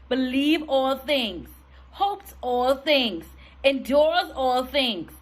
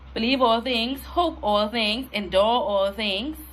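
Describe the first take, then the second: First: It is read with strong passion. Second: It is read flatly, without passion.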